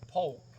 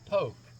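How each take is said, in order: First: The name is said with the L sounded. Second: The name is said with no L sound. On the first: This is how the name is spelled. "the actual name of that is P O L K" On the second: This is how the locals say it. "but we all pronounce it Poke"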